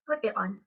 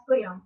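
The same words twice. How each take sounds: First: Said in the usual way. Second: "put it on" run together as one word; casual, connected "put it on"; linking. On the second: Shown as a demonstration. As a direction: blur the t sounds and link "put it on". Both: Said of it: "words or sounds are linked together".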